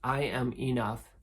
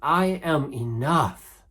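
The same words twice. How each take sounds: First: It is said calmly, with low intensity. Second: It is said with more power and intensity.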